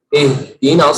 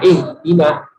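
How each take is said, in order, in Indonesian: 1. Bunyi h jelas, terucap penuh. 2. Bunyi h lemah, hampir tidak terdengar. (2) "lemah mengucapkan hak itu"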